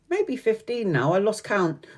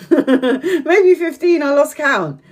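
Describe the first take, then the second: First: Softer, slower admission; quiet aside. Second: High, drawn-out words through laughter; laughing. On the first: Correcting her fourteen years single, quiet aside. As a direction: drop it in quietly, almost to yourself. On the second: Admitting she lost count of years single, laughing. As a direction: crack up and repeat it much higher. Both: Real, not acted.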